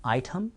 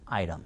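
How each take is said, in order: First: "아이템" said as AI-tum; English-style "아이템", T fully released; careful T. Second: "아이템" said as AI-rum, lower; low, quiet "아이템", T turned into a flap; flapped T. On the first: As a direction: say "아이템" with a clear T. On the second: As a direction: say "아이템" softly with a tapped T. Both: Shown as a demonstration. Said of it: "빨라지면 아이템".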